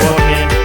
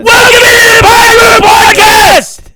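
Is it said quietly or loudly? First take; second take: quietly; loudly. First: It is said quietly and flatly. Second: It is said loudly and excitedly.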